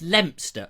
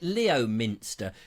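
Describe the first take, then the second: First: The name is said in a reduced, shorter form. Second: The name is said fully, following its spelling. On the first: The speaker calls it right. "It's Leominster, although it's spelt Leominster" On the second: The speaker calls it wrong. "a lot of people get that wrong. They call it Leominster"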